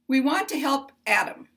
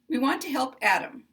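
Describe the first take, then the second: No difference in how they are said.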